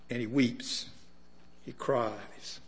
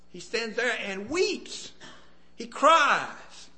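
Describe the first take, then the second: First: Softer and lower, hushed cries. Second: Cries. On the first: Preacher repeating that Jesus cried, hushed and low. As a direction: let it drop to a hush. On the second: Preacher describing Jesus weeping, high anguished emphasis. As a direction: cry out the word with pain. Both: Acted.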